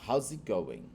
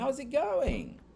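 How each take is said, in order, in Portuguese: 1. É dito com tom raivoso. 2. É dito com tom feliz. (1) "se eu estiver com raiva" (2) "Se eu estiver bem alegre"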